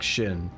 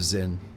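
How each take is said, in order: First: The word begins with an 'sh' sound. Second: The word begins with a 'z' sound. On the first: "like the more Chinese style" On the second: "instead of"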